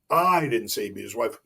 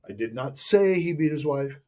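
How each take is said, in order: First: The word "I" is stressed. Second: The word "say" is stressed. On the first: Someone else said it. "Kristen said it" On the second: It was implied but not said. "I implied it, but I never said it"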